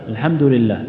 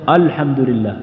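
First: The opening glottal stop is weak and faint. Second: The opening glottal stop is heavy and thick. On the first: "يبدأ بالهمزة لكن ضعيفة" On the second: "أو يبدأ بها مفخمة"

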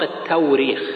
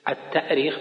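First: A w sound follows the first syllable. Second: A glottal stop follows the first syllable. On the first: This form replaces the glottal stop with w. "لأن الهمزة تبدل بواو" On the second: This form follows the word's derivation. "التأريخ بالهمز لأنها أرخ يؤرخ"

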